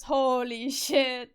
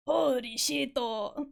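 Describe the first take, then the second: First: Put-on slow Japanese-accented English, stretched vowels. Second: Put-on Japanese-accented English, rising at the end. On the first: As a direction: imitate a Japanese speaker saying it slowly. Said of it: "their accent comes through so hard". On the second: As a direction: imitate a Japanese player reacting in surprise. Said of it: "The Japanglish is usually so fucking funny".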